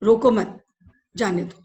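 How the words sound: The pause comes after 'mat'.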